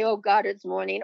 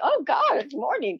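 First: It sounds weary and full of dread. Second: It sounds bright and full of joy. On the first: The speaker dreads the new day. "We can say" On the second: The speaker welcomes the new day. "or we can say"

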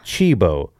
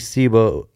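First: The word begins with a 'ch' sound. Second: The word begins with an 's' sound. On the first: "It is pronounced Chibo" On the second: "aesthetically, Cibo sounds better"

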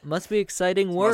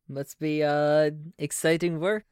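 First: It is spoken in a New York accent. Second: It is spoken in a German accent. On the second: "I don't know why I went German all of a sudden"

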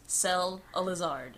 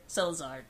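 First: The name is said at a slower pace. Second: The name is said at a faster pace. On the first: "if you say it like this" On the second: "Say it faster"

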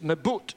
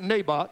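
First: The name is pronounced the Hebrew way. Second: The name is pronounced the English way. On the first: "it's Naboth in Hebrew" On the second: "but we pronounce it Naboth"

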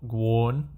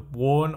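First: The word starts with a G sound. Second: The word starts without a G sound. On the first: "however you want to say it" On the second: "where the G's silent?"

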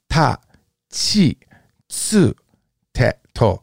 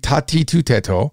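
First: The second and third syllables are chi and tsu. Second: The second and third syllables are ti and tu. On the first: The speaker calls it right. "it's ta chi" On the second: The speaker calls it wrong. "It's not going to be ta ti tu te to"

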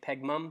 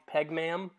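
First: Ma'am is said with a British pronunciation. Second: Ma'am is said with an American pronunciation. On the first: "if you're in the UK, you probably say Peg Mum" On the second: "They're calling it Peg Ma'am"

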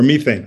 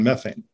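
First: Methane is pronounced the British way. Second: Methane is pronounced the American way.

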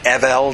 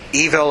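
First: It sounds different from the English word evil. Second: It sounds like the English word evil. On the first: It is heard only as part of the king's name. "I prefer to pronounce it Evel" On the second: It could be taken as a description of the king. "I don't want people to think that evil was a description"

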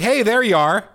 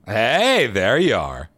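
First: It is said plainly, without mocking. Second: It is said in a mocking tone.

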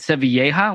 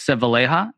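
First: The surname is said with Spanish-style sounds. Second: The surname is said with anglicized sounds. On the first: This follows the name's Spanish origin. The speaker calls it right. "it can be said Sevilleja with the two L's. It's kind of from Spain" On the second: This is the familiar way the speaker grew up saying it. The speaker calls it wrong. "I always said it as [name]. That's kind of how I was raised"

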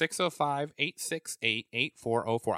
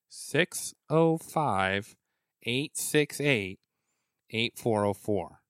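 First: The number is said quickly. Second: The number is said slowly.

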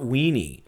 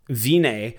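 First: The name begins with a W sound. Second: The name begins with a V sound. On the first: The speaker calls it wrong. "I don't know how to say his last name" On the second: The speaker calls it right. "W's the Wienster, are pronounced V in German"

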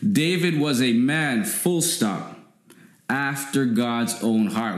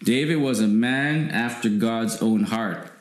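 First: There is a clear pause after man. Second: It is said without a pause after man.

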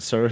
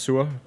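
First: It is said with an English pronunciation. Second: It is said with a Danish pronunciation. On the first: It sounds like a royal title. "but you pronounce it Sir" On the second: It means sour. "in Danish it's pronounced Sur"

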